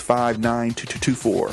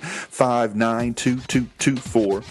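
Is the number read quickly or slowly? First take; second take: quickly; slowly. First: The number is read quickly. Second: The number is read slowly. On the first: The speaker calls it wrong. "I said that fast" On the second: The speaker calls it right. "Let me say it again"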